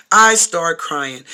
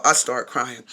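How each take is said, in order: First: "I start crying" stretched slow and louder; drawn-out emphasis. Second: Said in the usual way. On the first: Real, not acted. Storyteller repeats it to her viewers, "I start crying" slow and emphatic. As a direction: draw out each word of "I start crying".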